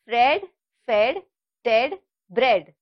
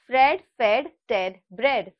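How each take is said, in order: First: The words are said slowly, one by one. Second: The words are said quickly, run together. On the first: "I will repeat" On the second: "Let's try faster"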